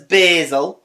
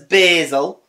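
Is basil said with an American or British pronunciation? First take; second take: American; American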